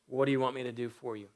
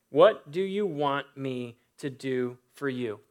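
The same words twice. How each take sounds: First: A brisk, hushed asking; quick, soft question. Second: Slow, deliberate question. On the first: Preacher reading Jesus' question to the beggar, quick and soft. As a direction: rattle it off quietly. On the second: Preacher repeating Jesus' question to the blind man, slow and deliberate. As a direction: let each word land slowly. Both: Acted.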